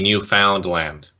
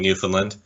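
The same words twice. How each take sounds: First: The stress falls on the last syllable. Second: The last syllable is not stressed. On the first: The speaker calls it right. "You really gotta re-emphasize the ending" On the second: The speaker calls it wrong. "pronounced it the same way as a lot of us do"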